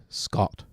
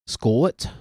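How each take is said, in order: First: Said in the usual way. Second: "Scott" drawn into two syllables in a Scottish accent. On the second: Shown as a demonstration. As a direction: give "Scott" a rising Scottish glide. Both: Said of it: "two syllables of that".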